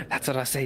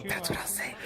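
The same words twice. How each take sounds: First: Whispering. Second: Said in the usual way. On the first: Real, not acted. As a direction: breathe it with no voice. Repeats the line, then whispers.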